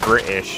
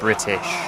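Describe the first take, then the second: First: It is said in a British accent. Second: It is said in a non-British accent. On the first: "I'm British. You can tell because I said British" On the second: "instead of British"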